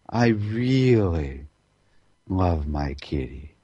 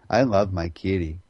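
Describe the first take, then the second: First: It is said warmly, full of love. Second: It is said flatly, without feeling.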